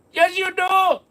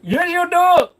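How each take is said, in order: First: Put-on high Indian accent, yelling it again; shouted scammer accent. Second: Put-on high, loud Indian accent insisting; shouted scammer accent. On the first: Scammer shouts the retort again, Indian accent. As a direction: Indian accent, belting the comeback. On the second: Scammer yells back at a reluctant victim, Indian accent. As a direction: Indian accent, yelling the retort. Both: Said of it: "stop doing that accent".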